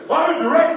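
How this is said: It is said with strong passion.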